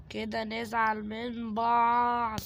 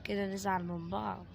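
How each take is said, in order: First: Slow drawn-out threat. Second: Said in the usual way. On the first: Acted. Taunting the game's Granny.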